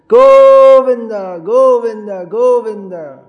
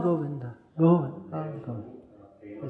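First: It is called out desperately, in helplessness. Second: It is called lazily, in comfortable satisfaction.

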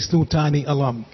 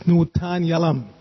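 First: The two words are said separately with a full i. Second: The two words are run together as one word. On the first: The speaker calls it wrong. "You don't say snutani alam" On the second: The speaker calls it right. "It's snutanyalam"

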